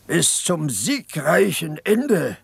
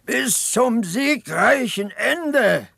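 First: Slow, lightly mocking imitation of a young orator's cry; understated mock shout of a war slogan; mock rallying cry. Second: Much higher, drawn-out hammed-up slogan; exaggerated mock orator's cry, very slow and high; mock shrill rallying cry. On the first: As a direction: parody the boy's slogan without real volume. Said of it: "schrie er". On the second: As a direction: ape the boy on the barrel, stretching every word. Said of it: "und schreit immer".

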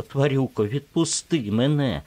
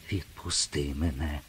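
First: High, loud cry of відпусти мене; pleading shout. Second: Softly breathed відпусти мене, rising at the end; whispered plea. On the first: Acted. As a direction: yell відпусти мене at him, desperate. She screams to be released. (відчайдушний крик «відпусти мене») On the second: A narrator's reading. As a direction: ask under the breath, afraid. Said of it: "прошепотіла вона". (тихе благальне «відпусти мене» пошепки)

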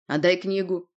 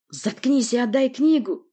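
First: Firm, mildly insistent demand; restrained but firm order. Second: Loud, high, angry bark; forceful, angry demand; barked order. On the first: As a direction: demand it without shouting. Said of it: "потребовал толстяк". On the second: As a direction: bark it out, drawing the words. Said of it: "рявкнул Порти". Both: Acted.

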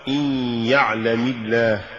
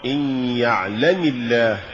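First: Careful model of يعلم الله; correct recitation. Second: Deliberate slip on يعلم الله; mispronounced recitation. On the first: Narrator shows learners the fix for يعلم الله, correct reading. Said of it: "والصواب". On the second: Narrator shows learners the error in يعلم الله, wrong reading. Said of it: "وكأن يقال". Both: Shown as a demonstration.

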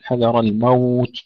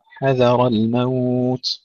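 First: حذر الموت with a heavy ha; imitating the mistake. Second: حذر الموت very slow, light ha and dhal, heavy ra; correct recitation. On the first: Teacher showing how many brothers get it wrong. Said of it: "كثير من الإخوة يقولون". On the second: Teacher giving the right reading. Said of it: "ترقيق الحاء والذال وتفخيم الراء". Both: Shown as a demonstration.

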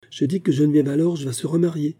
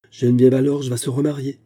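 First: Higher, gently smiling repetition; sweetly smiling. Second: Mildly abrupt, emphatic news-breaking; abrupt announcement. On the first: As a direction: repeat it sweetly, with a smile. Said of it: "répéta Diane avec un doux sourire". (répétition douce, avec le sourire) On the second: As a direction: drop the news suddenly, name first. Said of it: "Elle prit un temps et brusquement lança". (annonce lancée brusquement) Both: A narrator's reading.

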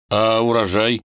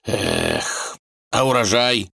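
First: Lost, puzzled «урожай» rising up; bewildered. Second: Sad drawl. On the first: Vanya confused asks his wife, a puzzled rising «урожай». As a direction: ask «урожай» as if truly at a loss, rising. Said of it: "спросил растерянно". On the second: The tsar laments his harvest to his daughter, drawling sadly. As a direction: sigh and drawl «урожай» sadly. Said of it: "протянул печально". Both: A narrator's reading.

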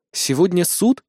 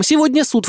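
First: Lightly surprised, almost to herself; startled question. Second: Much higher and louder, with a hard fall on "Сегодня суд!"; urgent raised shout of "Сегодня суд!"; alarmed exclamation. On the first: Heroine realises court is today. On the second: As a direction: cry out "Сегодня суд!" in alarm, pitch up high. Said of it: "Аня тараторит вместо меня". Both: A narrator's reading.

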